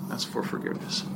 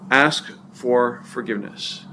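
First: Whispered, almost no voice; hushed repeat. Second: Said in the usual way. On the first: Shown as a demonstration. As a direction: drop to a near whisper for emphasis.

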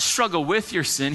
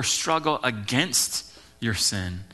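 First: Said in the usual way. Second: "against" drawn out slowly, set off with weight; stress on AGAINST. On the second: Shown as a demonstration. Pastor correcting the congregation's wording, stressing "against". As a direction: lean slowly and firmly on "against". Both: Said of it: "It's not struggle with your sin".

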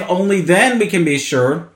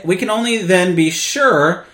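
First: Emphasis up front on "only then"; stress on "only then". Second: Emphasis falls on "sure"; stress on "sure". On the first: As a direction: lean on "then", ease off "be sure". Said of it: "placing the stress on the condition". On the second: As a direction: make "sure" the strongest word of the phrase. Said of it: "to emphasize the word sure". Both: Shown as a demonstration.

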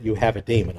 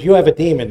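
First: Said in the usual way. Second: Louder crowd taunt, You have a demon; mocking crowd accusation. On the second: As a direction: fling it at him like a taunt. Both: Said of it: "I don't think they literally meant".

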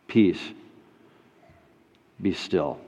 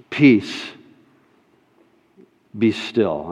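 First: "Peace" and "Be still" hushed, much softer; near whisper. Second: A soft, calm "peace, be still"; soft command. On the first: Acted. Preacher calming his listeners' fears, hushed. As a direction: breathe the words almost silent. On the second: Retold or imitated. Jesus speaking to the storm, soft and calm. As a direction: let the words settle the storm gently.

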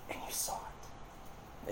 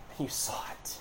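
First: Slow whisper. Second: Hushed whisper. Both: Real, not acted.

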